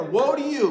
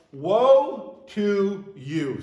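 First: "Woe to you" said quick, loud and higher, "Woe" punched; louder quick woe. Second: Drawn-out, weighty "Woe to you" with "Woe" stretched long; slow solemn woe. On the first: Preacher repeating the phrase, sharper and louder. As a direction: snap it out louder. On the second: Preacher to congregation, slow solemn pronouncement. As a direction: intone "Woe" slowly and gravely. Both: Shown as a demonstration. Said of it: "Stop right there".

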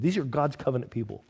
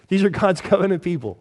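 First: Quiet aside. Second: Louder emphasis. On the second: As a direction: stress on are, said louder and higher. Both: Shown as a demonstration.

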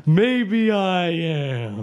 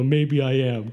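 First: Slow, drawn-out dramatic line; milk it for drama. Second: Dramatic. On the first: Acted. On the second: Shown as a demonstration. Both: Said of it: "I was being dramatic".

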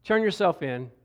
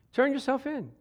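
First: Said in the usual way. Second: Pitched up, pleading call to turn yourself in; preacher pleading higher the second time; higher urging. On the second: Acted.

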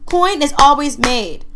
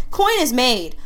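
First: Slow, louder, fervent emphasis on coin; slowed-down emphatic declaration; emotional. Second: Said in the usual way. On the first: Real, not acted. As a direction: preach it like a conviction, real feeling. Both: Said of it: "Sorry, I got emotional".

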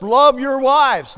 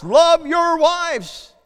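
First: Slow, louder, each word leaned on; deliberate scripture emphasis; slow emphatic command. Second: Higher, louder, very slow preaching cry; urgent preached repetition; stronger repeat. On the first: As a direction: preach it as a plain command, slowly. Quoting Ephesians, emphatic preaching. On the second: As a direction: drive the command home harder. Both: Acted.

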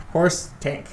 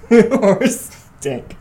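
First: Said in the usual way. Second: Laughing through the words; cracking up as you say it. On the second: Real, not acted. Repeats joke laughing.

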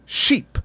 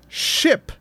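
First: "sheep" for ship, with a long Spanish ee; Spanish-accented vowel. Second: Said in the usual way. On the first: Shown as a demonstration. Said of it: "if I'm Mateo". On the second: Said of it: "the word ship".

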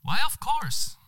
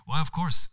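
First: Very high, bright-pitched first try; first take, high. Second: Pleasantly surprised. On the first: Narrator trying the line high first, much higher. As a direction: squeak it up high. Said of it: "«Why, of course», sier jeg". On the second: Narrator as herself greeting the stranger, pleasantly surprised. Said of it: "sier jeg, behagelig overras". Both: Acted.

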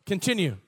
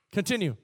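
Both takes have the same delivery.

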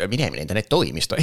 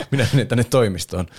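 First: Said in the usual way. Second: Posh Karvinen voice. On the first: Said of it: "sanoi, että". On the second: Retold or imitated. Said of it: "se hienosta Karvisen ääni".

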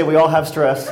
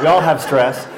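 First: Said in the usual way. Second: All gets the main stress, said firmly. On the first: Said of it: "I mean that we, we all have stress". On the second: Shown as a demonstration. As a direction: lean on the word all. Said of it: "I mean that we".

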